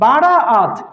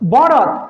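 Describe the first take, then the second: First: The word has three syllables with long vowels. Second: The word has two syllables with short vowels. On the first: The speaker calls it right. "শব্দটা হবে হচ্ছে বারাআত।" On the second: The speaker calls it wrong. "যদি আপনি বরাত বলেন ভুল"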